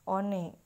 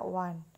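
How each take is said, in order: First: It is read out as it is spelled. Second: It is pronounced like 'wan'. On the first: The speaker calls it wrong. "nulisnya O N E ya" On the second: The speaker calls it right. "tapi kita baca one"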